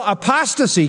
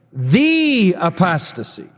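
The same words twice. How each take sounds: First: Said in the usual way. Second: "The" drawn out as a long "thee"; stress on THE. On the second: Shown as a demonstration. Preacher correcting a misreading for the congregation, stressed THE. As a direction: lean slowly and firmly on "The". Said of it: "that article is very definitive".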